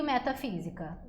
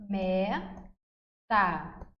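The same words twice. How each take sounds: First: Said in the usual way. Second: "Metafísica" slowly, syllable by syllable, with long pauses; each syllable of "Metafísica" set apart, slow and measured; split into syllables. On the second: Shown as a demonstration. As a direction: break "Metafísica" into me, ta, fí, si, ca. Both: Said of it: "como que eu divido metafísica".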